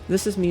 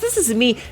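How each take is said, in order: First: It is said quietly in a reserved way. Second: It is said loudly with high energy. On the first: It is how the speaker talks when not performing. "This is me normally. ... I generally talk much quieter" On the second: It is a performance for an audience. "This is my on-air voice"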